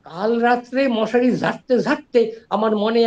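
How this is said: It is said with comic exaggeration on ঝাড়তে ঝাড়তে. "এই যে ঝাড়তে ঝাড়তে আর হয়েছে, এইটা দিয়ে তিনি হাস্যরসের সৃষ্টি করলেন"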